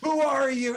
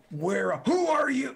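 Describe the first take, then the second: First: High, loud barking orc; orc cutting in. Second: Orc guard. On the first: Second orc talks over the first, loud. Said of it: "And he's like". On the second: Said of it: "One of them starts to say". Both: Acted.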